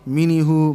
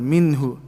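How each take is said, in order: First: A short vowel is sounded after the n. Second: The n is closed with no vowel after it. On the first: The speaker calls it wrong. "I'm not saying minihu" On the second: The speaker calls it right. "I'm stopping on the noon"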